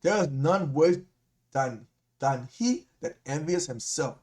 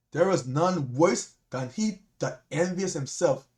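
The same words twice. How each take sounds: First: Slow, deliberate second reading; slower, weighted reread for the congregation; slow emphatic reread. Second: Slow reading. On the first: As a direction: let each word land slowly. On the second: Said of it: "Let's read that again". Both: Shown as a demonstration.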